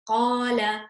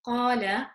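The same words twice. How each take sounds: First: The long vowel is strong and clear. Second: The long vowel is weak and faint. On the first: The speaker calls it right. "it's nice and clear" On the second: The speaker calls it wrong. "where it's just weak"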